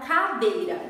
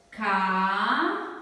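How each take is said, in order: First: Said in the usual way. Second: "Cadeira" said slowly, syllable by syllable: ca-dei-ra; split into syllables. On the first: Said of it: "Vamos pensar na palavra cadeira". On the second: Shown as a demonstration. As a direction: spell out "Cadeira" in slow separate syllables. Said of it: "Vamos separar em sílabas". ("Cadeira" separada em sílabas, devagar)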